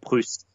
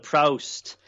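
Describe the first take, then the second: First: Proust is said with a French pronunciation. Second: Proust is said with an anglicized pronunciation. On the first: The speaker calls it right. "in perfect, you know, perfect French pronunciation" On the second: The speaker calls it wrong. "The barrister deliberately mispronounces Proust"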